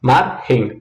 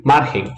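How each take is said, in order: First: MARGEM broken in two, MAR then GEM; split into syllables. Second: Said in the usual way. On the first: Shown as a demonstration. Teacher showing the two syllables of the word, MARGEM split as MAR-GEM. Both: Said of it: "Quais são as sílabas de margem?".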